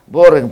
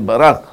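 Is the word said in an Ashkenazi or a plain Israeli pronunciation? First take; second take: Ashkenazi; plain Israeli. First: It is said in an Ashkenazi pronunciation. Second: It is said in a plain Israeli pronunciation.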